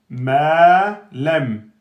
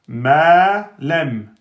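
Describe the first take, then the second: The two takes are said the same way.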